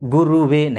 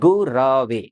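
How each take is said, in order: First: The second syllable has an 'u' vowel. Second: The second syllable has a short 'a' vowel. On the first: The speaker calls it wrong. "गुरुवे नहीं" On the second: The speaker calls it right. "गुरवे नमः इस मंत्र का जप करिए"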